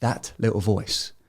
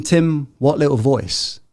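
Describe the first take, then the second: First: Softer, lower pointed reply; pointed quiet reply. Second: Slow, puzzled question from the audience; puzzled listener. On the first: Shown as a demonstration. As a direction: drop the voice and point at it. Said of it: "answers the listener's question". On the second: Retold or imitated. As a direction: play a doubtful listener asking slowly. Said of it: "And if you're thinking".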